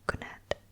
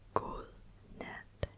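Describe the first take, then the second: First: The soft d almost disappears in casual speech. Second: Every sound is pronounced carefully and emphasized. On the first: "you'd probably just say good net" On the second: "good net is me emphasizing it"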